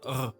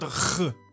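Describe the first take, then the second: First: The R is soft and gently voiced. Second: The R is harsh and strongly pushed. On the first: The speaker calls it right. "it's a R" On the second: The speaker calls it wrong. "pushed, you know, like it's not R"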